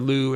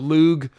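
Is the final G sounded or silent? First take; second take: silent; sounded. First: The final g sound is left silent. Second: The final g sound is pronounced. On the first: The speaker calls it right. "I should say. ... it's really just silent" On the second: The speaker calls it wrong. "I always want to pronounce the G"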